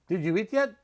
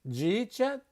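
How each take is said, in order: First: Each word is said fully and separately. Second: The words are blended into two quick syllables.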